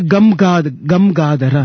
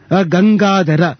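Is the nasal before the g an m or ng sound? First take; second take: m; ng. First: The nasal before g is an m sound. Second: The nasal before g is an ng sound. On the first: The speaker calls it wrong. "you don't say gamgadara" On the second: The speaker calls it right. "gam plus ga, gang"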